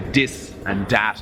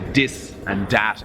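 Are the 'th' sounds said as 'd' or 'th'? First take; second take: d; d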